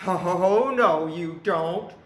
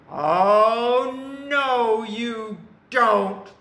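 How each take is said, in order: First: Unyielding big goat. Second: Very loud, raised troll refusal; defiant troll. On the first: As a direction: answer the troll firmly, without raising pitch. Big goat answers the troll. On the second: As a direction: block the goat with a drawn-out bellow. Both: A narrator's reading.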